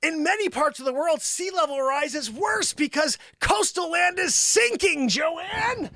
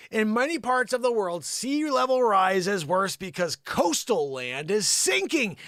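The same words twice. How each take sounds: First: High, insistent yell; screaming at her. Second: Said in the usual way. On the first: Acted. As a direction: repeat it at her, pitched up in exasperation. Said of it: "doesn't learn unless you scream at her".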